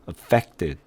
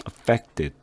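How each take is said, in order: No difference in how they are said.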